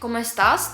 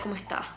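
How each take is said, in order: First: The final s is clearly pronounced. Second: The final s is dropped.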